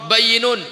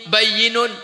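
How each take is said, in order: The two takes are said the same way.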